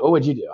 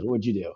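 First: Said in the usual way. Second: Softer, sincere question; really want to know; sincerely curious. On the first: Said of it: "I would ask, actually curious". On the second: Real, not acted. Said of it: "actually curious".

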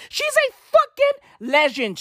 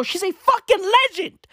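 First: Higher, slow emphatic cry; gushing about the anchor, bigger; emphatic praise. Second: Higher, emphatic praise; gushing about the anchor; excited praise. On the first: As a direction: stretch out the praise. Repeated louder and slower. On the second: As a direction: hype her up. Repeated for emphasis. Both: Real, not acted.

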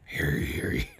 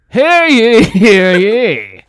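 First: Hushed, low mock proclamation; whispered town crier. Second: Loud, high town crier call. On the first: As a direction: whisper it like a secret herald. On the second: Pretend. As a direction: proclaim it like a medieval herald. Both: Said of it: "How would the Saw Doll in medieval times ask to play a game?".

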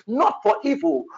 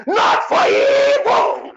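First: Said in the usual way. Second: High, slow, tearful shout; crying shout. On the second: Real, not acted. Prophet crying out against evil, high tearful shout. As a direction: wail the words out. Cried-out repeat of phrase.

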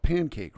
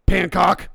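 First: Said in the usual way. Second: "Pancock" said loud and high, with "cock" for "cake"; misspelt word. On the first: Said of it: "it's spelt with an A". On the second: Retold or imitated. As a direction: blurt "Pancock", second half rhyming with "rock". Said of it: "spelt with an A, not an O".

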